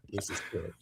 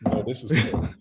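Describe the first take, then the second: First: Breathy whispered aside, much softer. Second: Said in the usual way. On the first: Real, not acted. Streamer stunned by the clip, whispering to himself. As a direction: drop to a whisper in disbelief.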